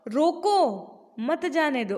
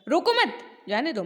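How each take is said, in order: First: The pause comes right after रोको. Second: The pause comes right after मत.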